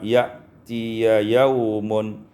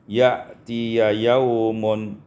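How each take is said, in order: No difference in how they are said.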